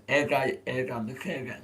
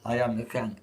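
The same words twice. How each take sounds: First: "jag am the king" with eg syllables inserted; egg language. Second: Said in the usual way. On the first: Shown as a demonstration. Streamer demonstrating Eggy language, "king" split by an eg sound. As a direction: scramble "Jag är" by working eg into each word. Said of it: "It's called Eggy language".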